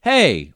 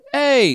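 First: Said in the usual way. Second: "Hey." pitched high and sharp; high British "Hey.". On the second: Shown as a demonstration. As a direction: call "Hey." up high like a Brit. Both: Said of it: "British people say it's like".

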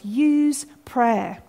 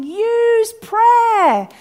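First: Slow, restrained earnest plea; imploring. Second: High, loud, long-drawn shout; God as Father shouting. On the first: God as Father to his forgetful children, imploring. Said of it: "He's imploring us". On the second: Father calling to his kids facing trouble, shouting. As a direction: holler it urgently to a struggling child. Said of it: "God as Father shouting". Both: Retold or imitated.

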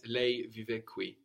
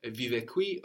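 First: Lei stressed, slow and clear; slow with lei emphasized; emphasize lei. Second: Said in the usual way. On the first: Shown as a demonstration. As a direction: lean on lei to clarify. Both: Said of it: "or if you want to clarify or emphasize".

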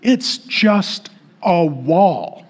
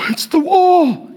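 First: Very slow, each word spaced out; unimpressed, drawn-out correction; deadpan dismissal. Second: High, slow hammed-up wail; put-on weepy voice, drawn out; mock emotional. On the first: Real, not acted. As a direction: drop back down and spell it out slowly. Deflating the mocked emotional pilgrim. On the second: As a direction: mimic a pilgrim overcome with tears. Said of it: "they get very emotional".

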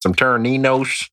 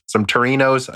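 First: "Taraninos" with an extra "nee" and a "sh" ending; mispronounced Taraninos. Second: "Torinos" as three syllables, tuh-REE-noz; corrected Torinos. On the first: Host fumbling a snack name, "Taraninos" as tair-uh-NEE-nosh. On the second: Host correcting a snack name, "Torinos" as tuh-REE-noz. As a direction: say "Torinos" without the extra syllable. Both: Real, not acted. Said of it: "I said that wrong".

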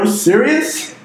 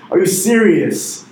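First: Pitched way up, rising in disbelief; high incredulous rise. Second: Slow and firm, falling at the end; deliberate falling repeat; slow emphatic repeat. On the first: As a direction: ask it like you can't believe it. Incredulous rhetorical question. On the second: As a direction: drive it home slowly. Repeats it, slower and firmer. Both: Real, not acted.

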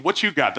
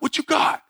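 First: Said in the usual way. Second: High, breathy taunting jab; taunting bully. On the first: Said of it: "That's the same line". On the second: Retold or imitated. Bully taunting Matt in the empty hallway, high and breathy. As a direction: egg him on in a high taunting voice. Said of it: "He's like".

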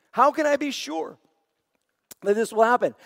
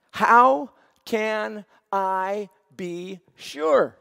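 First: Doubtful question. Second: Slow, hushed, honest asking; sincere question. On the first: Zechariah questions the angel, lightly doubting. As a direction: ask it as if you don't really believe. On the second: Abram asks God in faith, slow and sincere. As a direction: ask it from a heart that trusts. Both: Shown as a demonstration. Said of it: "Same words, different heart".

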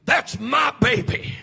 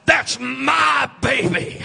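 First: Said in the usual way. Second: Slow, loud, drawn-out claim; mother claiming her child. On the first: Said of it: "a real mother will say". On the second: Retold or imitated. Preacher voicing a mother in the nursery, slow loud claim. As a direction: hold each word out like a proud mother. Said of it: "But she says".

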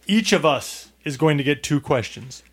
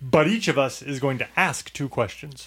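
First: Measured line with weight on "get"; stress on get. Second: Measured line with "ask" picked out; stress on ask. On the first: Host explaining the game's rules, stressing "get". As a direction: lean on "get" to set up a contrast. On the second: Host explaining the game's rules, stressing "ask". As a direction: punch "ask" as the contrasting word. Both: Real, not acted.

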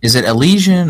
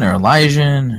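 First: Elysian with an 'ee' sound in the middle, e-LEE-zhun; raised voice, offering Elysian as e-LEE-zhun; unsure pronunciation. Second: Elysian with a long 'eye' in the middle, e-LIE-zhun; alternative pronunciation. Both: Shown as a demonstration. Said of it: "I don't know how to pronounce it".

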